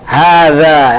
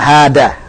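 First: The middle consonant is a soft th sound. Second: The middle consonant is a plain d sound. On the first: The speaker calls it right. "hada yang betul" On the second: The speaker calls it wrong. "bukan hada"

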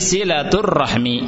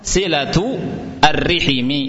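First: R takes an a vowel; h has none. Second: R takes an i vowel; h takes i. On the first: "ra-nya di fathah, ha-nya disukun" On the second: "ra-nya di kasrah, ha-nya di kasrah"

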